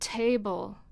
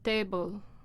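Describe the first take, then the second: First: The t is said with a puff of air. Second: The t is said without a puff of air. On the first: The speaker calls it right. "all word initial voiceless stops are aspirated in English" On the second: The speaker calls it wrong. "that's where you make the t table sound with no aspiration"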